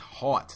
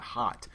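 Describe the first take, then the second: First: The vowel is broad and drawn out. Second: The vowel is short and plain. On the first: "that's a H A W T. That's hot" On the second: "not hot"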